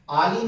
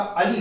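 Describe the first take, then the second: First: आली with a long "aa" at the start; long first vowel. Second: अली with a short "a" at the start; short first vowel. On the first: Teacher rejecting the printed option, long "aa" in आली. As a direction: draw out the opening vowel of आली. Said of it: "अली होता है". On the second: Teacher giving the correct synonym for bumblebee, short "a" in अली. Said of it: "आली नहीं होता". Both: Shown as a demonstration.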